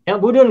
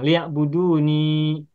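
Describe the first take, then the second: First: The word ends on a bare n sound. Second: The word ends with a long ni syllable. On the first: The reciter is pausing on this word. "ketika kita wakaf, bagaimana bacanya?" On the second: This is the original full form of the word. "Harusnya ninya dibaca dan panjang"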